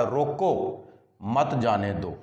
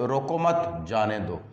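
First: रोको held alone, a clear break, then मत जाने दो falling; pause after रोको. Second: रोको मत run together, a break, then जाने दो; pause after मत. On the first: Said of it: "इसका माना देखें और फिर देखें". (रोको के बाद ठहराव, फिर मत जाने दो) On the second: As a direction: join रोको to मत, then let जाने दो fall. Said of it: "और फिर देखें". (रोको मत एक साथ, फिर ठहराव, जाने दो) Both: Shown as a demonstration.

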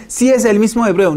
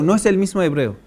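First: Higher and louder, imitating a confident claim; "Sí es el mismo hebreo" in a lightly mocking, higher voice. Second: Said in the usual way. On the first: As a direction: parrot their assurance, overconfident. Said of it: "y dicen".

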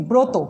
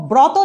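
First: ব্রত as "broto"; closed "o" after br in ব্রত; correct spoken vowel. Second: ব্রত as "brawto"; as-written vowel. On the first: Teacher models pronunciation, ব্রত with closed "o". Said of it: "উচ্চারণ করছি". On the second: Teacher reads the spelling, ব্রত with open "aw". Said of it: "লিখছি". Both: Shown as a demonstration.

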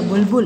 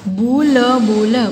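First: Said in the usual way. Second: बु ल, बु ल in separate held sounds; syllable by syllable. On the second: Shown as a demonstration. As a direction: sound out बु ल, बु ल piece by piece. (बु ल, बु ल तोड़-तोड़ कर) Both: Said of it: "properly बोलना है".

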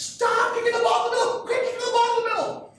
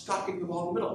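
First: High, loud sideline yell, imitating a coach; mock coach's scream, pitched way up. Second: Said in the usual way. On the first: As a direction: yell it at the players like a worked-up soccer coach. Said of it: "screaming at the girls". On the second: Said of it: "you keep screaming at the girls".

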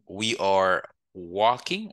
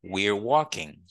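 First: "we are" as two words, slow; slow, uncontracted "we are", rising on "walking"; full form. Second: "we're" as one syllable before "walking"; "we're walking", are reduced to an r, falling end; contracted form. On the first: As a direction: sound are fully in "we are walking". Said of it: "Au lieu de dire". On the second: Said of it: "on peut dire". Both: Shown as a demonstration.

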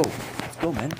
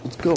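First: Breathy whispered let's go, much softer; whispered cheer. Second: Said in the usual way. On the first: Real, not acted. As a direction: hiss it under your breath, still excited. Repeated cheer, takes differ.

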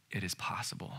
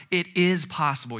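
First: Low, very soft voice; quiet, lowered, intimate assurance; hushed reassurance. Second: IS pushed higher and louder; emphatic, lifted stress on IS. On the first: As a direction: drop to a near whisper. Quiet reassurance after insisting. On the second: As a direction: insist on IS with raised pitch. Insisting to the congregation. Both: Real, not acted.

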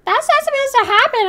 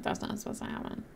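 First: High put-on voice quoting the crowd; high mock-chorus voice; mocking everyone. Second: Quick, stunned whisper; fast confused whisper; whispered to self. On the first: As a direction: mimic the chat in a squeaky voice. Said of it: "and everyone's like". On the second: Retold or imitated. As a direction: breathe it out in disbelief. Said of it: "I'm like".

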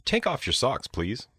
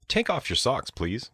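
The two takes are said the same way.

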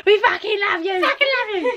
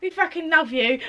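First: Higher and higher, building with delight; excited gush. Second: Said in the usual way. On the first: Real, not acted. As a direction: gush it out, climbing in pitch. Shouting love to a friend.

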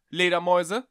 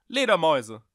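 First: Loud, high questioning call into the dark; loud rising call, a little unsure. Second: Loud call, pitch falling at the end; loud, insistent repeated call; calling again. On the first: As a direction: call out into an empty attic. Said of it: "rief er". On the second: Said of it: "rief er noch einmal". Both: Acted.

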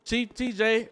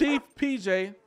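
First: Says "T J" with a T instead of "P J"; "Chief T J" with the first initial as a T sound; wrong initials. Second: Says "P J" with a clear P; "chief P J" with the first initial as a P sound; corrected initials. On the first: Mangles the chief's initials to "T J" while praising him. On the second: Fixes "P J" after the officers call him out. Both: Real, not acted.

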